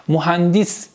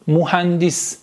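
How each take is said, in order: Both takes have the same delivery.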